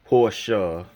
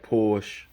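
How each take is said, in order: First: It is pronounced the German way. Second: It is pronounced the English way.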